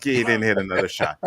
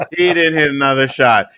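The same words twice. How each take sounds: First: Said in the usual way. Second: Louder, punchy restatement; triumphant louder restatement to friends; emphatic repeat. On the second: Real, not acted. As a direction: hit it home the second time. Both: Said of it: "repeated with emphasis".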